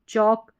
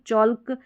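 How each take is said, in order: First: The L sound is left out entirely. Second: The L sound is pronounced before the K. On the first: The speaker calls it right. "एल silent रखेंगे" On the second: The speaker calls it wrong. "नहीं पढ़ेंगे"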